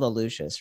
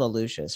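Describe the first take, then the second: First: The middle consonant is an sh sound. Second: The same.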